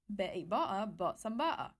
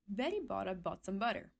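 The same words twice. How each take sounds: First: The T sounds are replaced by glottal stops. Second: Each T is fully pronounced, with no glottal stop. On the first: "if I make the T glottal" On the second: "if I stress out the T in every word without a glottal stop"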